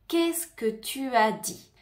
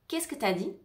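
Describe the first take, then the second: First: The words 'tu as' are said fully and slowly. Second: The words 'tu as' blend quickly into 't'as'.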